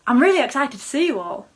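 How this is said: It sounds genuinely excited with rising inflection.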